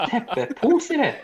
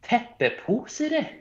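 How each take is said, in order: First: "Teppepusere." high, laughing through it, slowly falling; giggling pompous "Teppepusere."; laughing Oslo formal Norwegian. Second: "Teppepusere." said high and drawn out, slow; a flamboyant, overly formal Oslo take on "Teppepusere."; pompous Oslo written-Norwegian pronunciation of "Teppepusere.". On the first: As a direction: repeat "Teppepusere." in mock formal Oslo style while laughing. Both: Shown as a demonstration. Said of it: "the flamboyant fucking Oslo written version".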